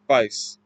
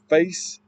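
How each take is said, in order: First: It is said with a Cockney accent. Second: It is said with a standard accent. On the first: "it would be like vice, like F I C E" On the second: "instead of face"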